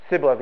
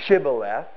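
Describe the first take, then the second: First: The word begins with an s sound. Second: The word begins with a sh sound. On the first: This pronunciation gives away the speaker as an outsider. The speaker calls it wrong. "They could only say Shibboleth" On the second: This is the local pronunciation the outsiders could not manage. The speaker calls it right. "They did not have the ability to say Shibboleth"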